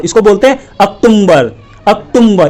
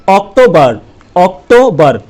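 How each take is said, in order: First: अक्टूबर said as aktumbar with an added m; mock wrong reading. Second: अक्टूबर said as oktobar, no m; correct pronunciation. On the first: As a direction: imitate schools saying अक्टूबर with an m. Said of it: "उनको क्या सिखा रहे हैं". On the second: Shown as a demonstration. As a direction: say अक्टूबर cleanly as English October. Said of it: "तो इसको क्या बोलते हैं".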